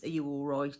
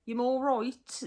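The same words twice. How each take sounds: First: Said in the usual way. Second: "You" said as "yam", raised pitch. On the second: Shown as a demonstration. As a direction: greet someone the local way with "yam". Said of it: "Yam means you are".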